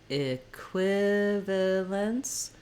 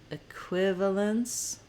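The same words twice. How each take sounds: First: The word is said slowly, syllable by syllable. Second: The word is said at a moderate speed. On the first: "say each syllable slowly" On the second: "build up speed"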